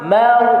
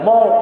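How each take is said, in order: First: The m sound is light and thin. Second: The m sound is heavy and full. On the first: The speaker calls it right. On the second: The speaker calls it wrong.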